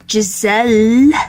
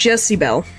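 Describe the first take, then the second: First: The name has no B sound in the middle. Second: The name has a B sound in the middle. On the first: The speaker calls it right. "very close to Jessie Bell, but Giselle" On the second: The speaker calls it wrong. "For some reason, I read it as Jezebel"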